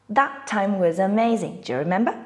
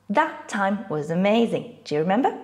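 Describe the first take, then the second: No difference in how they are said.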